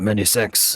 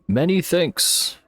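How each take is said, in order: First: It is said in a put-on French accent. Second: It is said in a plain, normal voice.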